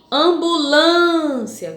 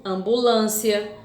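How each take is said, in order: First: "Ambulância" slow and louder, with a long held "lân"; stressed syllable demo. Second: Said in the usual way. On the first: Shown as a demonstration. Teacher asks pupils for the strong syllable, "Ambulância" stretched out on "lân". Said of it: "Qual é a sílaba forte de ambulância?".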